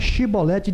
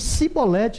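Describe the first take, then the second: First: The word begins with a sh sound. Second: The word begins with an s sound. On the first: This is how the test word should be said. The speaker calls it right. "não era chibolete" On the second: This is how the fleeing men said it. The speaker calls it wrong. "Eles diziam cibolete"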